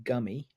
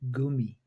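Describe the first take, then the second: First: The first vowel is short. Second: The first vowel is long. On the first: This is the local English way of saying it. "what we call in this country gummy" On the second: This is how German speakers say it. "they pronounce it with a, a longer U"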